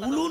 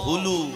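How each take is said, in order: First: The word starts directly with a vowel. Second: The word starts with an h sound. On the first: The speaker calls it wrong. "কথাটা উলু নয় গো" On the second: The speaker calls it right. "বইতে লেখা আছে হুলু"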